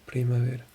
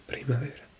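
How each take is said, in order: First: Said in the usual way. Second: Whispering the word primavera to herself; whispered repeat. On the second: Shown as a demonstration. Learner whispering an app word back, hushed. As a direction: breathe out Primavera without voice.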